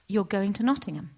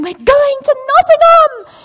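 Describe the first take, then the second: First: Said in the usual way. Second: Much higher, louder, slow excited yell; elated shout. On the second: Retold or imitated. Wife yelling the news at her husband, elated loud slow shout.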